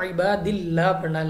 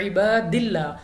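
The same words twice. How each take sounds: First: इबादिल्ला with a thin, light lam and the voice dropped; इबादिल्ला said correctly, lam kept light and lowered. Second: इबादिल्ला with a full, heavy lam; इबादिल्ला said the wrong way, lam made heavy and full-mouthed. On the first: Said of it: "आवाज़ को हमने नीचे गिरा देना है". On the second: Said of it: "ना कि पुर पढ़ना है।". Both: Shown as a demonstration.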